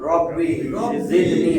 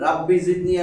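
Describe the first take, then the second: First: The first vowel is a rounded 'o'. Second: The first vowel is a clear open 'a'. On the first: The speaker calls it right. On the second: The speaker calls it wrong.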